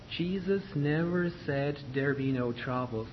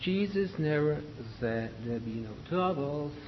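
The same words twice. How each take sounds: First: "Jesus never said there be no troubles" with each word clearly sounded; carefully pronounced phrase. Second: "Jesus never said there be no troubles" sagging in the middle; slumped pronunciation. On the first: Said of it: "So make sure you pronounce this word". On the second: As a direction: let "said there be no" slump and blur. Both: Shown as a demonstration.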